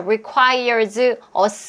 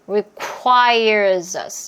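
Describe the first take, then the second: First: The two words are said separately. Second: The two words run together, linked. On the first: The speaker calls it wrong. "이렇게 소리 안 나오고" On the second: The speaker calls it right. "이렇게 연결해서 소리가 나왔을 거예요"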